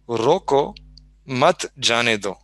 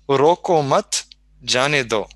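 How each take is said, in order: First: The pause comes right after roko. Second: The pause comes right after mat. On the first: Stop him, don't let him go. "the first sentence is" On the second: Don't stop him, let him go. "pausing slightly differently"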